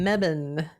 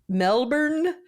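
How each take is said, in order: First: The name is said clipped, as Australians say it. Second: The name is said with full, spelled-out syllables.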